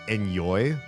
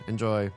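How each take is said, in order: First: The middle consonant is a Y sound. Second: The middle consonant is a J sound. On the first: "you took like the Y sound at the end of enjoy and you uh, replaced the J" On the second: "the common response was enjoy"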